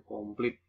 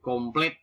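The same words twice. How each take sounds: First: "komplit" ending in plit; nonstandard pronunciation. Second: "komplit" ending in plet; standard pronunciation. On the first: (ucapkan "komplit" dengan i) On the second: (ucapkan "komplit" dengan e) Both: Shown as a demonstration. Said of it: "bukan komplit".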